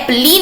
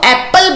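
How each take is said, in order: First: The word ends with an extra 'ee' vowel. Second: The word ends without an extra final vowel. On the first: The speaker calls it wrong. "एप्पली नहीं बोला जाता" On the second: The speaker calls it right. "इसको एप्पल बोला जाता है"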